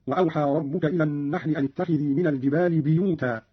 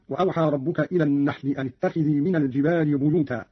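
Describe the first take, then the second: First: بيوتا said "biyuta", opening on bi; kasra on ba. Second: Said in the usual way. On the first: Shown as a demonstration. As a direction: start بيوتا with a short i, "bi-yu-ta". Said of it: "بكسر الباء أيضًا". (كسر الباء في بيوتا) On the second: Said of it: "قرأ قالون".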